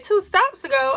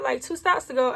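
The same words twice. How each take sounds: First: Higher, incredulous echo of the words; shocked disbelief. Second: Said in the usual way. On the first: Retold or imitated. Retelling the conductor's news to viewers, shocked disbelief. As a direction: repeat it back like you can't believe it. Shocked at missing her stop.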